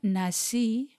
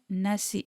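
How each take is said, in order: First: The word ends on a plain vowel sound. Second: The word ends with a k sound. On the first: The speaker calls it wrong. "Not nasi" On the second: The speaker calls it right. "colloquially pronounced with a K at the end of it"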